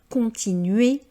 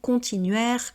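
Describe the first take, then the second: First: The ending is a plain é with silent r. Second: The ending is an open è with sounded r. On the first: The speaker calls it right. "C'est bien le son et" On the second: The speaker calls it wrong. "et non pas"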